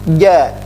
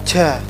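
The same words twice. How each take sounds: First: The consonant is pressed firmly without escaping breath. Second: The consonant is released with escaping breath. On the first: The speaker calls it right. "itu tidak keluar udaranya" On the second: The speaker calls it wrong.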